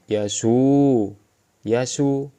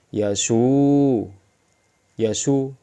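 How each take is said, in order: No difference in how they are said.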